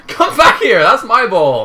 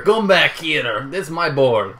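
First: High, loud yell with a laugh; shouting after the ball. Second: Hammed-up, slow Spanish accent that sounds French; bad Spanish accent. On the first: Real, not acted. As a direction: yell it across the pitch, much higher. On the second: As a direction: do a badly faked Spanish accent, drawn out. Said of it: "That's the worst French accent".

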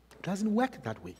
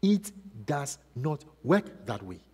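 First: Said in the usual way. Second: Quiet, firm, separate stress on "does" and "not"; measured word-by-word insistence, softly; emphatic word by word. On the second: Real, not acted.

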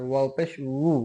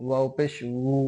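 The two takes are said the same way.

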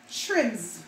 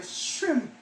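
First: Said in the usual way. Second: "Shrimp" with no r, shimp; Jamaican pronunciation. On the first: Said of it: "We say shrimp". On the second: Shown as a demonstration. Showing viewers the Jamaican "Shrimp" without r. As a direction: drop the r in "Shrimp". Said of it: "We eat out all the R".

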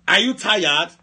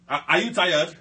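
First: Louder, commanding question to the room; authoritative challenge. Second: Said in the usual way. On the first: Shown as a demonstration. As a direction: put authority behind the question. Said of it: "so much authority on his voice". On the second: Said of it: "when I talk like this".

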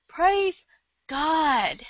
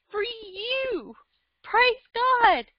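First: Said in the usual way. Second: Sudden high burst of "Praise God"; fervent cry of praise; rising cry of praise. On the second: Real, not acted. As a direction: let the praise break out up high. Preaching rises to a high cry.

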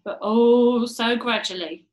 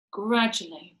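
First: "oh" stretched long and loud in "oh so gradually"; drawn-out emphasis. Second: Said in the usual way. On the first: A narrator's reading. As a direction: linger heavily on "oh", then ease through "so gradually". Repeat stressing slow change.

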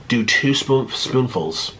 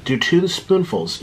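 First: Said in the usual way. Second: "two" said slowly and firmly; slow, hit the word "two"; stress on two. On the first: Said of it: "They're like". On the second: Shown as a demonstration.

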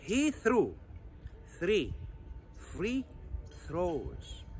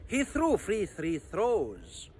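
First: Careful word-by-word model for learners; slow pronunciation. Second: Whole tongue twister run together; quick pronunciation. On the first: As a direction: isolate the words with long pauses. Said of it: "ده النطق البطيء". (نطق بطيء) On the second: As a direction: rattle it off without pauses. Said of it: "سرع النطق دوت". (نطق سريع) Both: Shown as a demonstration.

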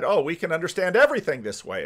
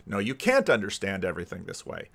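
First: Higher, quick, overconfident claim; mock confidence. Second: Lower, subdued contradiction; retold rebuttal. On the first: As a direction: imitate a naive sudden realization. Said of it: "and we said". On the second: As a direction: quietly knock down the overconfident claim. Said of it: "basically what's been happened".

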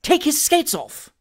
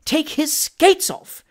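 First: High, slow, stern command. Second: Very slow, high, emphatic command; firm. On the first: Indignant gentleman to his servant, stern order. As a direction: order it indignantly, drawing out the words. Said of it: "said in a stern voice". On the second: Indignant gentleman overruling the skater, firm and drawn out. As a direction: spell out the order firmly, word by word. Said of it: "repeated Mister Pickwick firmly". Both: A narrator's reading.

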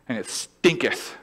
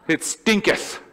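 First: Said in the usual way. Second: Higher, louder stinketh through a laugh; laughing King James. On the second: Shown as a demonstration. Pastor hamming up old Bible English, laughing. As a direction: savour the old word stinketh with a chuckle. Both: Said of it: "It's King Jamesian".

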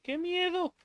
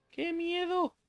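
First: High squeaky mock-scared cry, hammed up; mock fright. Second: Mock fright. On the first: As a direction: pretend to be terrified, falsetto. Mock fear in horror game. (miedo fingido en falsete) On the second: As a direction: repeat the high hammed-up scared squeak. Repeats mock fear. (miedo fingido, agudo)

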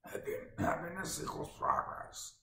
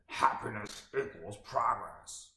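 First: Higher, rough monster rasp; Cookie Monster voice. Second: Lightly voiced Tony Robbins, slow and gravelly; slow growl, a hint of Tony Robbins. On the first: Retold or imitated. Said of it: "It's more Cookie Monster". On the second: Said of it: "in his gravelly classic voice".

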